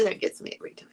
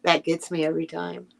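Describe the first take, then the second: First: Whispered to herself, much softer. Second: Said in the usual way. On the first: Real, not acted. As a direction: breathe the words out with no voice. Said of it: "repeats the line, whispered". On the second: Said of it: "repeats the line, second time whispered".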